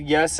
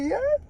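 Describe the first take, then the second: First: Said in the usual way. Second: Choked-up yes. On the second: Retold or imitated. Overwhelmed yes before bawling.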